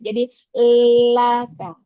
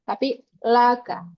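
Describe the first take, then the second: First: The first vowel is slanted and spread. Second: The first vowel is open and plain. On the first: The speaker calls it wrong. "Itu yang membuat Yorna miring bacaan eh, harokat fathahnya" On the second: The speaker calls it right.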